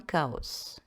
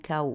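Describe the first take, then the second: First: The word is pronounced in a Greek style. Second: The word is pronounced in the usual French style. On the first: "moi, je le prononce à la grecque" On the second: "si vous préférez"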